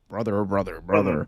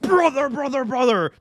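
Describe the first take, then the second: First: It is said quietly with slow low energy. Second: It is said loudly with frantic high energy. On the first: The speaker is implied to be off stimulants. "to like" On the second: The speaker is implied to be on stimulants. "his promos went from"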